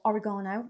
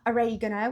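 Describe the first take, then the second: First: It is said with a British pronunciation. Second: It is said with an American pronunciation.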